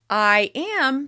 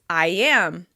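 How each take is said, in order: First: The two words are said separately. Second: A y sound links the two words.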